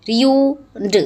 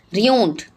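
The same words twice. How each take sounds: First: Ruined drawn out in two parts, ru and ined; broken into syllables. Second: Said in the usual way. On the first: Shown as a demonstration. Teacher dividing a word for pupils, ruined broken into its syllables. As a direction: say ruined piece by piece, the ending set apart. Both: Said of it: "break them in the syllables".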